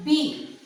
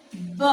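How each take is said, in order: First: Said in the usual way. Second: "b" as a short, low "buh"; phonic letter sound. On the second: Shown as a demonstration. Teacher demonstrates alphabet sounds, "b" as short buh. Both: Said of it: "let us see the sounds of alphabet".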